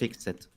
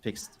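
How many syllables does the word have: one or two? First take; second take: two; one. First: The ending is said as a separate syllable. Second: The ending is joined into a single syllable. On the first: The speaker calls it wrong. "You don't say" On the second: The speaker calls it right. "It's fixed. ... You don't actually read the e"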